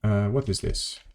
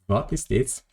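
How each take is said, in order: First: Said in the usual way. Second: Mock German accent, a bit higher. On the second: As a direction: put on a bad German accent. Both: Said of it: "Making a deliberate mock of German accent".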